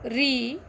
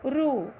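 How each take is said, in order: First: The letter is said as 'ri'. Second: The letter is said as 'ru'. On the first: This is the Hindi way of saying it. The speaker calls it right. "इसके बदले हमें हिंदी में री कहना" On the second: This is the Marathi way of saying it. The speaker calls it wrong. "अब रू जो है वो मराठी में हम कहते हैं"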